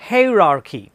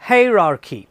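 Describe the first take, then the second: The two takes are said the same way.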